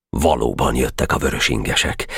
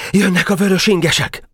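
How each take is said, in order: First: Said in the usual way. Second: Sentry's report. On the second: A narrator's reading.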